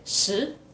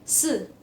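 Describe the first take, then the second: First: The pitch rises upward on the syllable. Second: The pitch falls sharply with strong emphasis. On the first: It means ten. "sepuluh ini nadanya ke atas" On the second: It means four. "Empat itu nadanya ini, nada keempat... Kayak ada penekanan"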